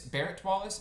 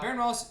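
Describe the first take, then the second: First: The first name ends with a T sound. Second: The first name ends with an N sound. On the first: The speaker calls it right. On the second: The speaker calls it wrong.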